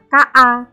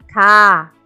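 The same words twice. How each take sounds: First: The vowel is short. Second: The vowel is held long. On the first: The speaker calls it wrong. "bacanya bukan" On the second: The speaker calls it right.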